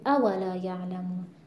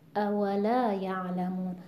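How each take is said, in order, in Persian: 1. هجای اول تکیه دارد. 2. هجای اول تکیه ندارد.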